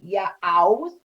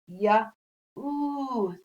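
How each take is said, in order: First: The word ends with an ow vowel sound. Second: The word ends with an ooh vowel sound. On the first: The speaker calls it wrong. "the most common way, the ow sound" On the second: The speaker calls it right. "the O U's other sound, which is ooh"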